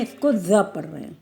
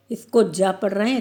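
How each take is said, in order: First: ज़ said as a buzzing z, like zoo; ज़ with the nukta, a clear z sound; ज़ voiced as z, not j. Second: ज said as a plain j, as in jam, with no nukta; ज pronounced like the j in judge; ज spoken as a hard j, not a z; plain ja sound. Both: Shown as a demonstration. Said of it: "क्योंकि इसमें नुक्ता लगा हुआ है".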